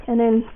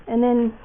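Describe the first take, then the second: No difference in how they are said.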